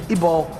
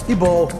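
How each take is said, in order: No difference in how they are said.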